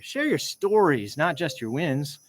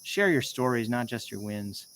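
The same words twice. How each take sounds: First: "Share" pitched high, slow and emphatic; slow down and lean on "Share your stories"; stress on Share. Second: Said in the usual way. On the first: Shown as a demonstration. Retaking his line to fix the intonation, slow and stressed. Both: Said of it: "I gotta get better at the intonation here".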